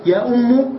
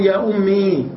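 First: "أم" said "ummu", higher pitch; damma ending. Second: "أمي" with a long final ee; original ya ending. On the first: Teacher contrasting the weak form with its origin, u ending. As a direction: lift "يا أم" and close it on u. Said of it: "ضم الحرف الذي قبل". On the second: Teacher giving the original form, long ee ending. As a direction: hold the ee of "أمي". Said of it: "أصله". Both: Shown as a demonstration.

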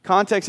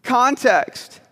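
First: Said in the usual way. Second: Higher, drawn-out "context"; self-important preacher word. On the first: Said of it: "Context is the word preachers use". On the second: Shown as a demonstration. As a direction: say "context" to sound really smart. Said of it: "it makes us sound really smart".

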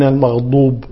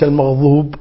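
First: المغضوب with a heavy stopped "d"; firm ض in المغضوب; dad. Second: المغضوب as "maghdhuub"; zha for dad. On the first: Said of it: "بالضاد". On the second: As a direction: soften ض in المغضوب to ظ. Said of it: "وليس". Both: Shown as a demonstration.

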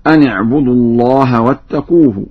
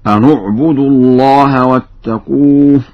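First: أن اعبدوا joined as ani-'budu; short i on the noon of أن; standard kasra noon. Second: أن اعبدوا joined as anu-'budu; chanted, short u on the noon of أن; Warsh damma noon. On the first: Teacher quotes the verse before Warsh, i on noon. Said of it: "قرأ ورش بضم النون". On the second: Teacher demonstrates Warsh's reading, u on noon. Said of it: "قرأ ورش بضم النون هكذا". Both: Shown as a demonstration.

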